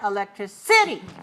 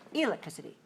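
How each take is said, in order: First: The stress is on the fourth syllable. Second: The stress is on the first syllable. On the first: "If five four" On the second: "if five one"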